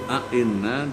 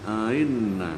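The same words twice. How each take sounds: First: The second hamzah is pronounced fully. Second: The second hamzah is softened and eased.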